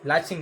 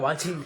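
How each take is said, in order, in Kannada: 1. ಈ ಪದ L ಧ್ವನಿಯಿಂದ ಆರಂಭವಾಗುತ್ತದೆ. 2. ಈ ಪದ W ಧ್ವನಿಯಿಂದ ಆರಂಭವಾಗುತ್ತದೆ. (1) "ಲಾಚಿಂಗ್ ಅಲ್ಲ"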